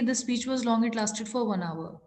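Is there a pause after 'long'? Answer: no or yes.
no. It runs on with no pause after 'long'. The speaker calls it wrong. "इसको इस तरह से हम नहीं पढ़ेंगे"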